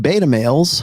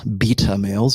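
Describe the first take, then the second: First: Beta is said with an American pronunciation. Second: Beta is said with a British pronunciation.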